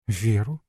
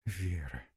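First: Веру with a rising questioning end; echoed question. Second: Вера very soft, falling away; unfinished hushed mention. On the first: Wife echoing the guest's question, rising Веру. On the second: Wife stopping short as husband enters, hushed Вера. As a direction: let Вера drop almost to nothing. She breaks off at the name. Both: A narrator's reading.

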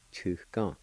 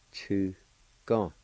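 First: Said in the usual way. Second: "Chu", a pause, then "gong"; syllable by syllable. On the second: Shown as a demonstration. Teacher repeating the word for flea, syllable by syllable. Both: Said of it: "it's pronounced like this".

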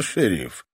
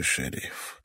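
First: Creepy grin. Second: Breathy whisper, fading out. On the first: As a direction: savour it with a sinister grin. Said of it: "осклабился старик в жуткой усмешке". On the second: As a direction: let the word die on the breath. Dying old man fading. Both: Acted.

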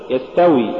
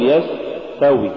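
First: Said in the usual way. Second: يستوي with a long hissed س; overdone sin. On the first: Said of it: "قل". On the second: Shown as a demonstration. Teacher warning against exaggeration, overlong س in يستوي. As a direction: drag out the س in يستوي. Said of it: "ولا تقل".

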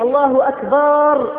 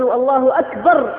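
First: أكبر stretched long as "akbaar"; preacher shows the wrong lengthened أكبر; drawn-out takbir. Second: أكبر said short with a fatha, no long a; correct takbir. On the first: Preacher demonstrates the mistaken takbir, vowel stretched. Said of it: "بمد التكبير". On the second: Preacher models the correct short takbir to the brothers. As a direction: say أكبر crisply with a short vowel. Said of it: "بالفتحة وليس بالألف". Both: Shown as a demonstration.

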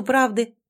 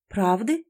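First: Said in the usual way. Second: "Правды?" with a rising questioning end; puzzled echo question. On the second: Acted. Heroine fails to understand the demand for truth, puzzled "Правды?" rising at the end. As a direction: ask "Правды?" as if not understanding. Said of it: "не поняла я".

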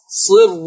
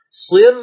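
First: "صر" with a dark, thick rolled r before u; heavy ra. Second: "صر" with a thin, light r before u, pitched up. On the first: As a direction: say "صر" with the ra heavy, as in Hafs. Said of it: "وفخم، لا". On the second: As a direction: say "صر" thinning the ra, lifting it. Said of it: "لكن رو مرققة". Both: Shown as a demonstration.

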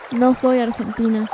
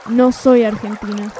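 No difference in how they are said.

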